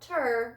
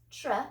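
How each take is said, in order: First: A short vowel separates the t and r. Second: The t and r blend with no vowel. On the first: The speaker calls it wrong. "not tur" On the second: The speaker calls it right. "T R that says tr"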